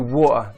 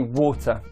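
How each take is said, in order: First: The middle T is replaced by a glottal stop. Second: The middle T sound is clearly pronounced. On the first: The speaker is talking casually with friends. "if I'm with friends or I'm speaking very casually" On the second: The speaker wants to sound formal. "when I want to sound more formal"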